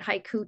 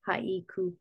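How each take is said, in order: First: The word is said with two syllables. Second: The word is said with three syllables. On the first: This is the English way of saying it. "we say it haiku, 2 syllables" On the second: This is the Japanese way of saying it. "In Japanese, you would say it with 3 syllables"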